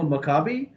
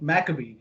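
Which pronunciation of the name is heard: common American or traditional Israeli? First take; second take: traditional Israeli; common American. First: The name has its traditional Israeli pronunciation. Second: The name has its common American pronunciation. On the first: "the traditional Maccabi" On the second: "the more commonly heard Maccabee"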